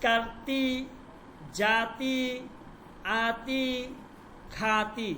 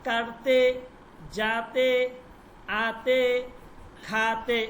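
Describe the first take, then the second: First: কারতি, জাতি, আতি, খাতি ending in a clear long i. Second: কারতে, জাতে, আতে, খাতে ending in a clear e, said louder. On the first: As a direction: finish each word on a long ee sound. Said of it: "ইয়ায় মারুফ দিয়ে". (শব্দের শেষে লম্বা ই উচ্চারণ) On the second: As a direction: finish each word on an open e sound. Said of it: "ইয়ায় মাজহুল দিয়ে বলি". (শব্দের শেষে এ উচ্চারণ) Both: Shown as a demonstration.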